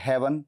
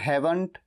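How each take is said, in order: First: The final t sound is dropped. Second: The final t sound is pronounced.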